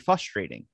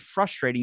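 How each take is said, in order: First: The R after the F is dropped. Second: The R after the F is clearly pronounced. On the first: The speaker calls it wrong. "Like there's no R" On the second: The speaker calls it right. "every time you say frustrating"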